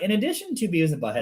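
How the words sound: It is said in a put-on radio announcer voice.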